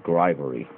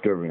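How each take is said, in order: First: "grivery" opening on GR plus a long i; rejected pronunciation. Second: "gerbery" with GER as one r-coloured syllable; stated pronunciation. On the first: Knife reviewer showing the mistaken name of the handle material, "grivery" with a GRY opening. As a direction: say "grivery" like GRY-vuh-ree. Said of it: "not grivery". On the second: Knife reviewer correcting how the handle material is said, "gerbery" with a GUR opening. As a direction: say "gerbery" like GUR-vuh-ree, no long i. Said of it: "Yes, it's pronounced gerbery". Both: Shown as a demonstration.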